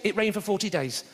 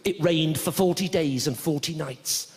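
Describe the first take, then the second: First: Said in the usual way. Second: Slow, measured Bible-story delivery; scripture recitation. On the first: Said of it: "Why don't they just say". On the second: Acted. Reciting the Noah story to an audience, slow biblical reading. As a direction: recite it slowly like old scripture. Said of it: "like the Noah story".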